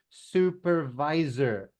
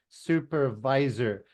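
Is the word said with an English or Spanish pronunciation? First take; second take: English; English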